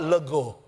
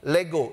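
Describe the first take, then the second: First: The word is pronounced the Javanese way. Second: The word is pronounced the Greek way. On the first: It is a Javanese word, not the Greek one. "Kalau bahasa Jawa" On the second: It is the Greek word meaning to claim. "ini dari bahasa Yunani"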